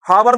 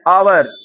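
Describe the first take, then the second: First: The word begins with an h sound. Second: The word begins directly with a vowel. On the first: The speaker calls it wrong. "हावर नहीं बोलते हैं" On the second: The speaker calls it right. "एच silent जा रहा है"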